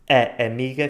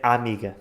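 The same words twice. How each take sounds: First: The two A sounds are said separately. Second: The two A sounds merge into one.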